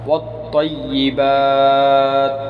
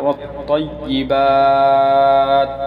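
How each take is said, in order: Both takes have the same delivery.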